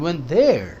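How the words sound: The stress is on the word there. We went to that place, nowhere else. "कहीं और नहीं, वहीं गए"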